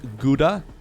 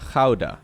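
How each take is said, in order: First: It is said with an American English pronunciation. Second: It is said with a Dutch pronunciation. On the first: "Americans will pronounce as Gouda" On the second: "this would be pronounced in Dutch as Gouda"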